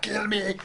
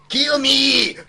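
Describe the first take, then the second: First: It is said in an Austrian accent. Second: It is said in a Mexican accent. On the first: The speaker calls it wrong. "not a, an Austrian accent" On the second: The speaker calls it right. "but in a Mexican accent"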